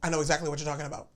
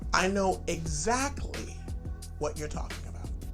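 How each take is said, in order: First: The whole sentence is said quickly. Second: It slows down in the middle of the sentence.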